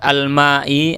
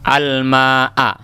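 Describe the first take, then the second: First: The word ends in the vowel i. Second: The word ends in the vowel a. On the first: The speaker calls it wrong. "Jangan dibuat al-ma'i atau al-ma'u, salah" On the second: The speaker calls it right. "tanda nasabnya di sini adalah fathah"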